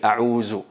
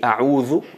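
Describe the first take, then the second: First: The middle consonant is a z sound. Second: The middle consonant is a soft th sound. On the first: The speaker calls it wrong. "cambian el dal con el zay, a'uzu, y eso es totalmente incorrecto" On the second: The speaker calls it right. "a'udhu me, me refugio en Allah"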